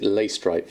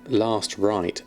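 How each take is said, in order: First: The first syllable sounds like 'lay'. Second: The first syllable sounds like 'last'. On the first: It follows how the spelling looks. "I always pronounce it Laystripe" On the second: It makes the name a pun. "probably meant to be pronounced uh, last right"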